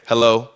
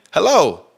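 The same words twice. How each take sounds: First: Said in the usual way. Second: Sharper hello. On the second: Shown as a demonstration. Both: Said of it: "the difference between you saying".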